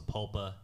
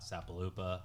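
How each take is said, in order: First: The name is said with three syllables. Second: The name is said with four syllables. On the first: The speaker calls it right. "I know it's pronounced Sapulpa" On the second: The speaker calls it wrong. "not Sapalupa"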